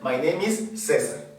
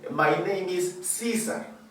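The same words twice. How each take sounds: First: The name is said with Spanish sounds. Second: The name is said with English sounds. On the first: The name keeps its original sound. The speaker calls it right. "Yo voy a transfonetizar mi nombre" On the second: The name is translated into the other language. The speaker calls it wrong. "yo no le voy a decir"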